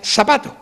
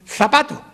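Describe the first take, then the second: First: It is said with a Sevillian 's' sound. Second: It is said with a Castilian 'th' sound.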